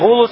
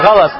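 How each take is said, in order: First: Both syllables have the vowel u. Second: Both syllables have the vowel a. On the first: The speaker calls it wrong. "а не гулус" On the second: The speaker calls it right. "Приходит с фатхой над буквой гам и над буквой лям тоже фатха"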